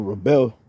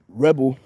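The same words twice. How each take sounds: First: "rebel" stressed on the second syllable, re-BEL; rebel as verb. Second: "rebel" stressed on the first syllable, REB-el; rebel as noun. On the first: Preacher giving the other reading to his brothers: "rebel" said re-BEL. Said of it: "or rebel". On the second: Preacher defining a word for his brothers: "rebel" said REB-el. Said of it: "the word, re-, uh, rebel". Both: Shown as a demonstration.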